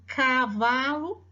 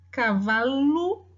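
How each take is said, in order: First: Said in the usual way. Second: Cavalo drawn out slowly, syllable by syllable; slowly sounded out. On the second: Shown as a demonstration. Teacher sounding out cavalo slowly for the class. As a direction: spell cavalo out by ear.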